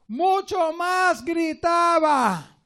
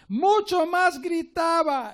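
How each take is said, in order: First: Higher, louder, slow preaching shout. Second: Higher, louder shout through a laugh. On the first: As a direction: shout the words out slowly. (grito fuerte y lento de predicador) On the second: (grito alegre entre risas) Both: Acted.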